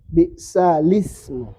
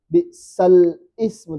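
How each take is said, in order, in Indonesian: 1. L langsung menyambung ke vokal setelahnya. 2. L ditutup sebelum 'ismu' yang terpisah. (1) "Memindahkan harokat hamzah ke huruf lam" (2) "Jangan diizhar lam sukun"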